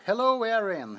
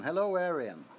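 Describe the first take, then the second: First: Excited greeting. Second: Said in the usual way. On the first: Real, not acted. Greeting viewer twice.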